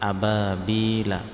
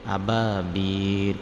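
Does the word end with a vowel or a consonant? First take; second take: vowel; consonant. First: The word ends with a short vowel after l. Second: The word ends on a bare l sound. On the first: The reading continues without stopping. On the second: The reader stops at this word.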